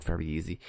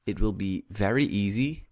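First: "very easy" said quieter and lower, as if in quote marks; wry aside, not meaning it; ironic air quotes. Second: Said in the usual way. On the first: Real, not acted. To viewers, doubting his own claim, wryly ironic. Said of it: "well, quote unquote".

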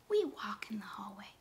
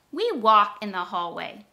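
First: Whispered, no voice. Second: Said in the usual way. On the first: Shown as a demonstration. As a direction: whisper it like in a quiet hallway. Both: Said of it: "repeat the sentence just like I said it".

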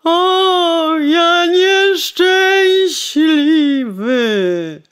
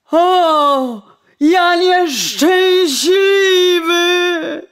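First: High, loud, very slow wail on nieszczęśliwy; wailing lament. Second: High, loud, slow wail on nieszczęśliwy; wailing lament. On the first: Coachman groaning over his dead horse, high and loud. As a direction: draw nieszczęśliwy out in a long crying groan. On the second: Coachman wailing over spilled wine, high and loud. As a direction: stretch nieszczęśliwy into a long crying moan. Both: Acted. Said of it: "jęknął woźnica".

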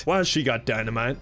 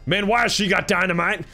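First: Said in the usual way. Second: Incredulous alarm. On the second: Pretend. Gamer spotting someone holding dynamite, incredulous alarm. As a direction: ask it again in mounting disbelief. Repeats question in louder alarm.

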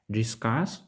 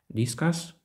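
First: "discuss" stressed on CUSS, as the verb, drawn out slowly; stress on second syllable. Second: "Discuss" stressed on DIS, like the noun discus; stress on first syllable. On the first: («discuss» з наголосом на другий склад CUSS) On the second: («Discuss» з наголосом на перший склад DIS) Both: Shown as a demonstration. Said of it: "наголос на складах може відігравати".

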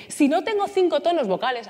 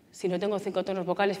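First: Lively, varied melody; five vocal tones. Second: Low, softened near-monotone; one or two tones. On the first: Coach showing the class a fuller voice, widely varied tones. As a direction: move the pitch across several notes. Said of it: "a que esto es diferente". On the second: Coach showing what a narrow voice sounds like, near-monotone. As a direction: keep it low within a couple of notes. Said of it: "Uno o dos tonos". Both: Shown as a demonstration.

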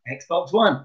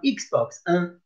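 First: Said in the usual way. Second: Un said the French way, nasal "uh"; French Xbox un. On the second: Shown as a demonstration. Teacher showing year two the French Xbox un. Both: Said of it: "Numéro un is number one".

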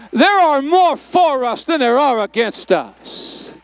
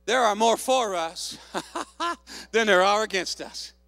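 First: Very loud, slow, hammered declaration; full-force preaching shout. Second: Said in the usual way. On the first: Real, not acted. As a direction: shout each word to the back row. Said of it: "Oh, you didn't hear me". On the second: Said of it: "here's what I love what he said".

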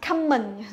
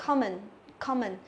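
First: "common" drawn out slowly as CAM-mần; exaggerated mispronounced "common"; wrong pronunciation demo. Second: "common" with stressed KOM, weak second syllable; careful demo of "common", KOM-ən; first-syllable stress. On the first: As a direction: show the mistaken "common" with an a-like first vowel. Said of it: "Không đọc là common". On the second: Shown as a demonstration. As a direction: model "common", falling after an open first vowel. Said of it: "nhấn trọng âm thì chúng ta đọc".

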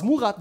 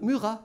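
First: Said in the usual way. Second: "Murat" in French, ü and throaty R; Frenchify "Murat" as "Müra"; French version. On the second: Shown as a demonstration. Teacher renaming a pupil, French pronunciation of "Murat". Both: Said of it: "die französische Version ihres Namens".

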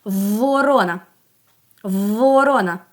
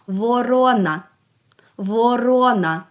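First: "Ворона" with a long, held В at the start; first sound stressed. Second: "Ворона" with the final А full and drawn out; last sound stressed. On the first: Teacher asks children for the first sound, opening В in "Ворона" held long. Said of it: "який її перший звук". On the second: Teacher asks what is heard at the very end, final А in "Ворона" drawn out. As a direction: lean on the closing А of "Ворона". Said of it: "в самому-самому кінці". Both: Shown as a demonstration.

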